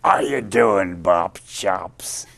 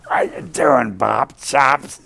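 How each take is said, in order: First: A light, gravelly-free hint of [name]'s greeting, a bit louder; [name] impression. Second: Higher and louder, a hammed-up [name] greeting; [name] impression. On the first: Greeting the young guitarist as Louis did, a mild [name] voice. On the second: Louis hailing the guitarist at the Blue Note, hammed-up Louis voice. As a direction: belt out the greeting like [name]. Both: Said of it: "He called me Bob Chops".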